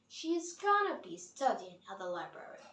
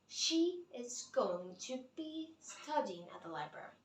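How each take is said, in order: First: Going to is reduced to a quick gonna. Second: Going to is said as two full words. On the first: "But we pronounce it" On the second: "what we write is this"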